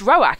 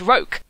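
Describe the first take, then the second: First: The vowels are said as two separate syllables. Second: The vowels merge into a single syllable. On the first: The speaker calls it right. "you pronounce this Roak" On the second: The speaker calls it wrong. "and not Roke"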